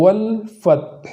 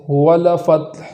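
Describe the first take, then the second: First: والفتح with ل held still; slow والفتح, ل stopped cleanly; correct sukun on lam. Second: والفتح with ل given a vowel; wrong vowel on lam. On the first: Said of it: "متحرک ہو جانے سے بچانا ہے". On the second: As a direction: show the mistake, ل of والفتح moving. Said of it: "ایسا نہ ہو". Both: Shown as a demonstration.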